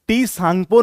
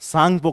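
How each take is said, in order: First: A 't' sound is spoken before the word. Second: The word begins directly with the 's' sound. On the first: The speaker calls it wrong. "इसको टी सांगपो नहीं पढ़ते" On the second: The speaker calls it right. "हम इसे केवल क्या कहते हैं, सांगपो कहते हैं"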